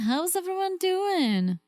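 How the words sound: It is said in a put-on chill voice.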